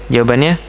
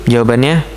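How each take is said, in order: The two takes are said the same way.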